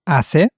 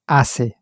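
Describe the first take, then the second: First: The voice rises at the end, a question. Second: The voice falls at the end, a statement.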